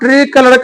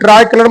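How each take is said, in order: First: The first syllable has an 'ee' vowel. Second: The first syllable has an 'eye' vowel. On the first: The speaker calls it right. "तिरंगा को ट्री colour कहते हैं" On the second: The speaker calls it wrong. "ट्राई colour मत बोलिएगा उसको"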